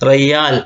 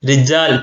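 First: The middle consonant is a 'y' sound. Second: The middle consonant is a 'j' sound. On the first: This is a common colloquial form among Arabs. "ജീമിന് ജ എന്ന അക്ഷരത്തെ യാ ആക്കി മാറ്റി" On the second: This is the standard form of the word. "റയ്യാൽ യഥാർത്ഥത്തിൽ റിജാൽ എന്നാണ്"

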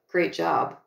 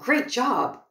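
First: The praise sounds dismissive and sarcastic. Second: The praise sounds warm and sincere. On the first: The work is not really praised. "I've just completely changed the meaning of those words" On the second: The work is genuinely praised. "that's one way of interpreting those two words"

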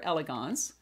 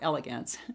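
First: It is said with a French pronunciation. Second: It is said with an American pronunciation.

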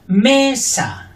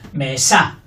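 First: The stress is on the first syllable. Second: The stress is on the second syllable. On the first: "fuerte la primera" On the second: "Fuerte la segunda"

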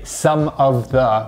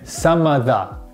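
First: The words are said separately, in full. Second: The words are reduced and linked together. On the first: The speaker calls it wrong. "We don't say some of the" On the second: The speaker calls it right. "we say some of the"

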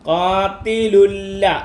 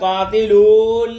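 First: The first vowel of lulla is short. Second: The first vowel of lulla is long. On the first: The speaker calls it right. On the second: The speaker calls it wrong.

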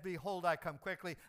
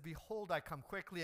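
First: It is said louder, with more power. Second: It is said at normal preaching volume.

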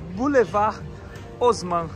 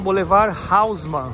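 First: Haussmann starts with a vowel 'o' sound. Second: Haussmann starts with a throaty R and 'au' sound. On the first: This is how it is said locally. "O H não tem som de R e A com U em francês é O. Então é Boulevard Haussmann" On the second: This is how Brazilians usually say it. "no Brasil a gente está acostumado a falar Boulevard Haussmann, né? Porque a letra H a gente pronuncia como um R"

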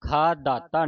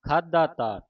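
First: The break comes right after the first syllable kha. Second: The break comes after khadha, before the final ta. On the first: The speaker calls it wrong. "ਖਾ ਦਾਤਾ ਨਹੀਂ ਪੜ੍ਹਨਾ" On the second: The speaker calls it right. "ਇਸ ਦਾ ਜਿਹੜਾ ਉਚਾਰਨ ਹੈ ਖਾਧਾ ਤਾ"

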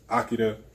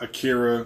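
First: The name is said with a Japanese pronunciation. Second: The name is said with an American pronunciation. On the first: The speaker calls it right. "that's how he pronounces it" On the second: The speaker calls it wrong. "It's not Akira, which is the American way"

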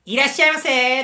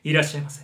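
First: It is said in an ordinary, less rich voice. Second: It is said in a rich, deep low voice.

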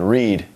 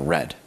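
First: The vowel is long, rhyming with 'seed'. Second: The vowel is short, rhyming with 'bed'. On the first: It is the base form of the verb. "doesn't change its spelling, but does change its pronunciation" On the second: It is the past participle form. "does change its pronunciation"

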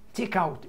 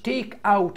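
First: The two words run together without a break. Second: The two words are said with a break between. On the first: The speaker calls it right. "يبقى تعمل كونكشن بينهم" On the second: The speaker calls it wrong. "مش تيك اوت"

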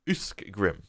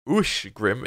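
First: The middle consonants sound like 'sk'. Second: The middle consonants sound like 'sh'. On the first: The speaker calls it wrong. "and not Uskgrim" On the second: The speaker calls it right. "Ushgrim is"

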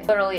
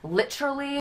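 First: It is said in an American accent. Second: It is said in a British accent. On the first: The speaker calls it wrong. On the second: The speaker calls it right.

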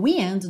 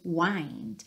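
First: The vowel is short and closed, like 'pinned'. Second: The vowel is open and long, like 'find'. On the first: It names the moving air. "igual ao wind do vento" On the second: It means turning a clock's spring. "tem uma pronúncia diferente, aberta"

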